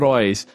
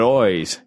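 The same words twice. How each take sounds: First: The word is said in a plain accent. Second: The word is said in an Irish accent. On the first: The speaker calls it wrong. "Not eyes" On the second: The speaker calls it right. "I know they say their eyes is eyes"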